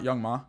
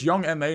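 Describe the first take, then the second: First: The end is said as one syllable. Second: The end is spelled out as two letters. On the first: The speaker calls it wrong. "not Young Ma" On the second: The speaker calls it right. "So it's [name]"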